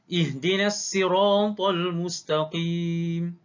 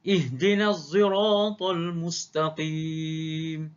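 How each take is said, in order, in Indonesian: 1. S pada sirat itu s biasa. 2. S pada sirat itu bercampur z. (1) "Yang kedua, Qumbul" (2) "Wajah ketiga, Hamzah"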